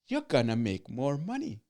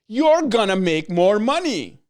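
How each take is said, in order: First: It is said plainly, with ordinary energy. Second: It is said emphatically, with more energy.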